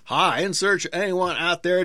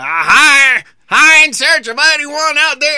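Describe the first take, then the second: First: It is spoken at a normal, moderate loudness. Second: It is yelled very loudly. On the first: The speaker calls it wrong. "you didn't scream it loud enough" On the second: The speaker calls it right. "I have to yell really loud"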